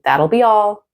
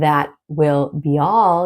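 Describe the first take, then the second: First: The word 'will' is contracted onto 'that'. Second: The word 'will' is said in full. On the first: "you can say" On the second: "instead of saying"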